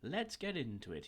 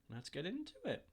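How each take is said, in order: First: The voice stays steady, not squeaky. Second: The voice cracks and goes squeaky.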